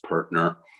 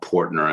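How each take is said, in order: First: The first syllable sounds like 'per'. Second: The first syllable sounds like 'por'. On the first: The speaker calls it right. "It's pronounced Pertner" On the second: The speaker calls it wrong. "and not Portner"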